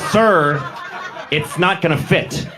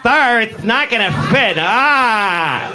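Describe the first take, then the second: First: It is said in a plain, only slightly camp voice. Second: It is said in a very exaggerated camp voice.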